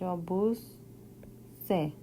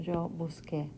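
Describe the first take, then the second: First: The last syllable starts with an s sound. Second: The last syllable starts with a k sound. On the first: The speaker calls it wrong. "If you don't change anything, it's just yo busé, and that wouldn't work" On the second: The speaker calls it right. "to keep that k sounding"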